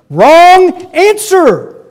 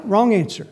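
First: "Wrong answer" drawn out slowly, very high and loud on "Wrong"; stretched, booming "Wrong answer"; emphatic correction. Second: Said in the usual way. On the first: Shown as a demonstration. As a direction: slam down "Wrong answer" as a verdict.

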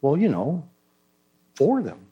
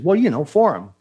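First: Softer hedging reply, paused, then emphasis on "for"; stress on "for". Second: Said in the usual way. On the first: Retold or imitated. Cornered churchgoer re-answers the pastor, stressing "for" in "for them". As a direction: lean on "for" as if that explains it. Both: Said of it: "change your emphasis on the word".

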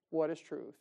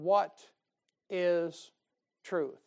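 First: Said in the usual way. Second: "What ... is ... truth" with a pause between each word; pause-broken "What is truth"; dramatic pauses. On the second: Shown as a demonstration. Dramatic reading of Pilate's question.

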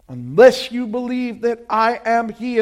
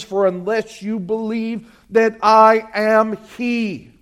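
First: Weight the words "I am" as the key of the verse; stress on I AM. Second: Said in the usual way. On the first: Shown as a demonstration. Preacher repeating the verse to the church, stressing "am". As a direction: lean hard on "am" in "I am he". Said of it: "the emphasis there is on the "I am". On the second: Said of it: "the emphasis there is on the".

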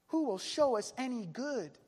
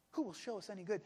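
First: Raised, projected appeal; crying out. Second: Subdued, resigned question; understated despair. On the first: Many doubting companions asking for good, crying out. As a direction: call the question out to everyone. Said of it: "Many are saying". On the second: Preacher echoing the doubting companions, understated despair. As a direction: let the question sink, quietly hopeless. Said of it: "This is the voice of despair". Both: Retold or imitated.

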